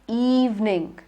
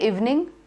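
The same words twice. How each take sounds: First: The first vowel is a long E. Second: The first vowel is a short E. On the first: The speaker calls it right. "but evening" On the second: The speaker calls it wrong. "Don't say evening"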